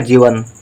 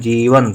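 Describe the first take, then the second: First: The first vowel is short. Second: The first vowel is long. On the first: The speaker calls it wrong. "यदि हम गलती से जा में छोटी ई की मात्रा लिख दें तो शब्द हो जाएगा" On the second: The speaker calls it right. "हमको लिखना जीवन, तो जा में बड़ी की मात्रा रहेगी"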